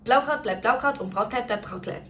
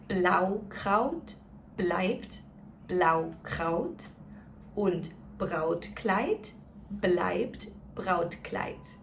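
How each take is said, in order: First: It is said as fast as possible. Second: It is said very slowly and carefully. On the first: "let's do it as fast as we can" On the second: "let's go through it one more time really slowly"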